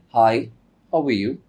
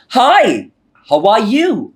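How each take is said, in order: First: The voice stays flat with little movement. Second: The voice rises and falls with energy. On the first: The speaker calls it wrong. "No feelings" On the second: The speaker calls it right. "So it has an intonation"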